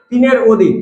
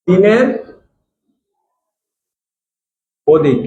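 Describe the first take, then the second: First: Said in the usual way. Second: তিনের and অধিক said as two separate words with long pauses between; slow emphasis. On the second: Shown as a demonstration. Teacher to students, drilling the nonmetal rule with slow spaced emphasis. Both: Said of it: "অধাতু হবে হচ্ছে".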